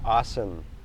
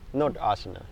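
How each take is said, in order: First: The word ends without a final vowel. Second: The word ends with a final a vowel. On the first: The speaker calls it right. "You don't pronounce the last A" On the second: The speaker calls it wrong.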